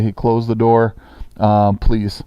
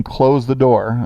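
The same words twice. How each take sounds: First: Said in the usual way. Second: Slow, even "Close the door." spoken as a request. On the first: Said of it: "I just say". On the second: Shown as a demonstration. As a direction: ask them to close the door, slowly. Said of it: "I'm saying".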